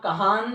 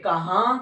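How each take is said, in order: First: The word ends with a full n sound. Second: The word ends in a nasalized vowel. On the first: The speaker calls it wrong. "कहान नहीं कहेंगे" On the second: The speaker calls it right. "कहां कहेंगे"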